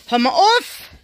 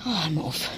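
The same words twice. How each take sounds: First: Higher, louder, scolding the rabbit; sharp call. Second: Lower, softer, exasperated; low quiet disbelief. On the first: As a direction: snap it at the rabbit. Ruft dem Hasen zu. (Frau schimpft laut mit dem Hasen) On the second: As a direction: drop it low, shaking your head. Ungläubig, leise. (leise und ungläubig) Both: Real, not acted.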